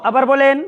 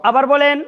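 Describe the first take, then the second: Both takes have the same delivery.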